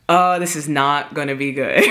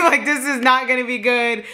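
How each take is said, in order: First: Low, ominous aside imitating her sister; retold foreboding. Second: High, laughing repeat. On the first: Sister bracing for a fight, retold foreboding. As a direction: imitate a sister who sees trouble coming. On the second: Real, not acted. Telling how her sister knew trouble was coming, laughing. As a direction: crack up while repeating the warning.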